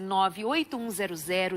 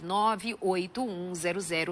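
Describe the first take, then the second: First: The digits are said quickly in one run. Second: The digits are said slowly, one by one. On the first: "Foi muito rápido?" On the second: "bem devagar"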